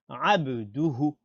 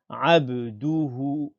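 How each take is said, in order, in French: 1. Les voyelles de du et hu restent courtes. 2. Les voyelles de du et hu sont allongées. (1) "On dit abduhu" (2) "On ne tire pas sur du et on ne tire pas sur hu. On dit pas abduhu"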